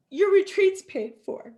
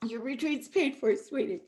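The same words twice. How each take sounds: First: Bright, louder reveal of good news; excited announcement. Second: Softer, gentle second telling; tender repeat. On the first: Telling Naomi her retreat is covered, excited. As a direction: announce it like a gift. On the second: Repeating the gift softly to a moved Naomi, tender. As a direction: let it sink in gently. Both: Real, not acted.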